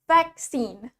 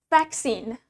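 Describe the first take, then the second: The two takes are said the same way.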